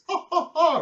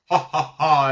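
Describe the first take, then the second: First: The laugh is in a higher pitch. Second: The laugh is in a lower pitch. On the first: "a little bit higher pitched" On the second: "the devil laughing as"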